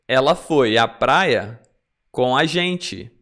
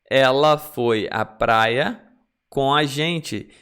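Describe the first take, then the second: The two takes are said the same way.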